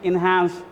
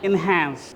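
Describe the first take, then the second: First: It is said in a British accent. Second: It is said in an American accent. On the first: "Britishers बोलते हैं" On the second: "Americans बोलते हैं"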